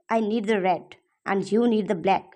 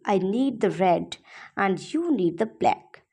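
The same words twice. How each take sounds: First: It is said in an angry tone. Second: It is said in a happy tone.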